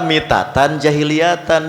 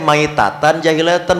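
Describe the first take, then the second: First: The first word begins with the sound 'mi'. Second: The first word begins with the sound 'mai'. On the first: The speaker calls it wrong. "bukan mitatan" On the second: The speaker calls it right. "dibacana teh maitatan jahiliyatan"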